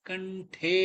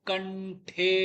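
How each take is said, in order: Both takes have the same delivery.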